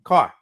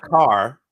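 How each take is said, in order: First: "Car" with a short, dropped R; "Car" said the Boston way, R left off; undragged R. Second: "car" with the R held out; "car" with a hard, pronounced R; dragged R. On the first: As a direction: end "Car" on an open ah, no dragged R. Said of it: "We don't drag the R". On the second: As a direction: drag the R at the end of "car". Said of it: "you drag the R". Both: Shown as a demonstration.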